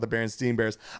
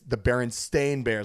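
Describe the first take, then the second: First: The name's second part rhymes with 'line'. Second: The name's second part rhymes with 'rain'. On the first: This is how people always remembered it. The speaker calls it wrong. "not the Berenstein Bears" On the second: This is the name's actual form. The speaker calls it right. "it's actually called, uh, named, it's the Berenstain Bears"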